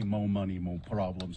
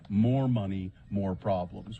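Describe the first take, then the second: First: More is clipped to mo, without the r. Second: More is said in full, with the r. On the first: The speaker calls it wrong. "I don't say" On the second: The speaker calls it right. "I say"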